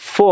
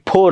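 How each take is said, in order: First: It starts with an f, lip against teeth. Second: It starts with a breathy p sound, lips together. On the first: The speaker calls it right. "फो आहे" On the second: The speaker calls it wrong. "फो नाही"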